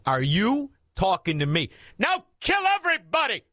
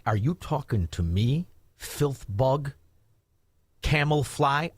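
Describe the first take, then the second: First: "Are you talking to me?" then a high shout of "kill everybody"; mock tough guy rallying to attack; tough-guy challenge rising to a yell. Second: Tough-guy challenge. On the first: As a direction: build from a dare to a high yell. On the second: Retold or imitated. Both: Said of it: "everybody with an I Q over sixty says".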